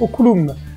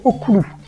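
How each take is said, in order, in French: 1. Le mot finit par un son m. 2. Le mot finit sur une voyelle, sans m. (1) "ils l'orthographiaient oculum" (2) "ils prononçaient le mot oculu"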